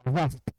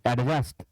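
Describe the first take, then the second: First: The d sound is left out. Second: The d sound is clearly pronounced. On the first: The speaker calls it right. "डी silent रखें" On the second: The speaker calls it wrong. "ऐसा कहना गलत है"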